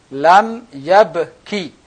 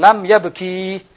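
First: The final vowel of yabki is short. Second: The final vowel of yabki is long. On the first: The speaker calls it right. "ki pendek" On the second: The speaker calls it wrong. "Jangan lam ya beki, salah"

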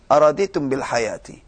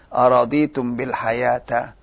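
First: The last word ends with an 'i' vowel. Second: The last word ends with an 'a' vowel. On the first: The speaker calls it right. "Baris kasrah" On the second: The speaker calls it wrong. "Enggak bisa dibaca araditum bil hayata"

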